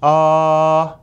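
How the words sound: The vowel sounds round and full. The speaker calls it right. "kalau bulat kayak"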